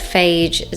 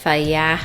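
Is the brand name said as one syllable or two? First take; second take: one syllable; two syllables. First: The name is said as one syllable. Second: The name is said as two syllables. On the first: The speaker calls it wrong. "I know I say it incorrectly" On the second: The speaker calls it right. "You're actually supposed to say it like that"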